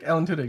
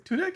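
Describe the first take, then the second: First: Said in the usual way. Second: "Tudyk?" asked with a sharp high rise on the end; "Tudyk?" checked as a question, pitch jumping up; questioning name check. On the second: Shown as a demonstration. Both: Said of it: "That, that's Tudyk".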